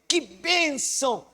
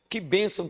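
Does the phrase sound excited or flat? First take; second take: excited; flat. First: It is said with lively, joyful excitement. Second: It is said in a plain, flat way. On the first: It is how the words come across in a voice message. "é diferente quando você fala no áudio" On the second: It is how the words come across when written. "você escreve assim"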